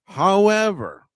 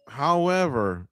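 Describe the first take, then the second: First: "However" high, slow and loud, falling; drawn-out emphatic however. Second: Said in the usual way. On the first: Shown as a demonstration. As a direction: stretch "However" high then drop it. Repeated however, first one emphatic.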